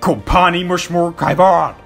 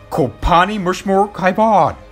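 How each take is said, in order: First: It is said aggressively. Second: It is said calmly.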